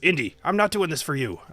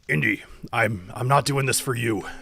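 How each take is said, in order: First: It is spoken in a woman's voice. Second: It is spoken in a man's voice. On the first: The speaker calls it right. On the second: The speaker calls it wrong.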